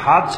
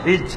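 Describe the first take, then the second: First: The vowel after 'h' is 'a'. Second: The vowel after 'h' is 'i'. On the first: "হায়ের উপরে জবর দিয়েও হয়" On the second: "জেদ দিয়ে হয়"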